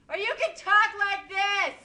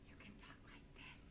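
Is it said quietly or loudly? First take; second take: loudly; quietly. First: It is said loudly. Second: It is said quietly.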